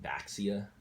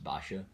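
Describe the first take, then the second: First: The middle consonant sounds like 'ks'. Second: The middle consonant sounds like 'sh'. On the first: The speaker calls it wrong. "a lot of people pronounce it Baxia" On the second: The speaker calls it right. "supposed to be pronounced Basha"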